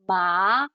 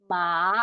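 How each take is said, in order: Both takes have the same delivery.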